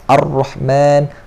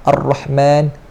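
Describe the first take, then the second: No difference in how they are said.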